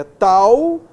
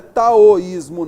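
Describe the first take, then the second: First: "taoísmo" with "tao" as one gliding syllable, tau-ís-mo; right pronunciation. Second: "taoísmo" split as ta-o-ís-mo, a-o as two syllables; wrong pronunciation. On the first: Teacher correcting students with the right taoísmo. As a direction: say "taoísmo" the correct way, "tao" run together, loud. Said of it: "Olha só a divisão silábica dela". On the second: Teacher showing students the wrong split of taoísmo. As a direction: say "taoísmo" the wrong way, ta-o-ís-mo, slow and loud. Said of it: "Não é taoísmo, não, que senão teria acento". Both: Shown as a demonstration.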